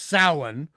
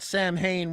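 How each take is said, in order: First: It is said with the Gaelic pronunciation. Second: It is said with an anglicized pronunciation. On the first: This is how the word is really said. The speaker calls it right. "which is actually pronounced" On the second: This is how the movie said it. The speaker calls it wrong. "they mispronounced the Gaelic word"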